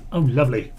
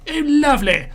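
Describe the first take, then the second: First: Said in the usual way. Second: Pitched way up in a hammed-up posh gasp; mock posh high exclaim. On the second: Gamer greeting the war in a mock posh voice. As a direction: squeal it like a delighted aristocrat. Repeats the phrase in another voice.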